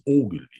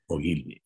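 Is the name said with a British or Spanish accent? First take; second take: British; Spanish. First: The name is said with a British accent. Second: The name is said with a Spanish accent.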